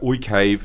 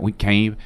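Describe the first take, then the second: First: It is spoken in a European-sounding accent. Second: It is spoken in a Chinese-sounding accent. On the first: "in in in Europe. They're gonna be like" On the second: "In fucking China, they're gonna be like"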